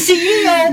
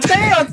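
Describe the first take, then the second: First: It is said as three letter sounds. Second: It is said as two letter sounds. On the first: The speaker calls it right. "tapi C E O" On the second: The speaker calls it wrong. "nggak C O"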